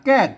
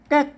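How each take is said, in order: First: The syllable has a falling tone. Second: The syllable has a high tone. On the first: "แก้กเสียงโท" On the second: "ใส่ไม้ซัดเข้าไปเป็นแก๊ก"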